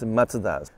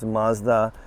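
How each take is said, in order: First: Mazda is said with a Japanese pronunciation. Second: Mazda is said with an American pronunciation. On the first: "in Japan it's Mazda" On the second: "in the US it's Mazda"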